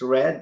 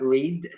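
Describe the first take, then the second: First: The vowel is short, as in bed. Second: The vowel is long, as in seed. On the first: The speaker calls it right. "you pronounce it right. It's Red" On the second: The speaker calls it wrong. "not Reed"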